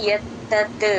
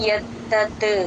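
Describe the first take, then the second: The two takes are said the same way.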